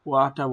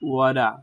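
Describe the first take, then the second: First: It is said in a British accent. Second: It is said in an American accent. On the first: "ব্রিটিশরা ওয়াটা বলে" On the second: "আমেরিকানরা ওয়াটারকে ওয়াডা বলে"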